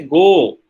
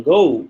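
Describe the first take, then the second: First: "go" with one pure, held "o"; Indian monophthong. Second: "go" gliding from "oh" into "oo"; British-American diphthong. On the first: Lecturer showing how Indians say it, "go" as a long monophthong. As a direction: hold "go" on a steady vowel, no glide. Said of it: "they will make it a monophthong". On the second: Lecturer showing British or American English, "go" with a diphthong. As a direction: let the vowel in "go" glide, "goh-oo". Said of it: "British English or American English is basically diphthong". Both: Shown as a demonstration.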